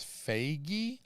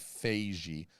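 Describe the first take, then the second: First: The g is hard, like in 'get'. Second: The g is soft, rhyming with beige. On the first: "I tend to say the soft G because it doesn't sound as bad as Feige" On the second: "but it sounds like beige"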